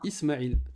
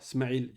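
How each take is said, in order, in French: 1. Le prénom commence par un son voyelle. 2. La première voyelle est supprimée, en commençant par « s ».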